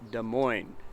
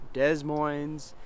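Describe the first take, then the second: First: The final S is silent. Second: The final S is sounded. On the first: The speaker calls it right. "our state capital is called Des Moines" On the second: The speaker calls it wrong. "not Des Moines"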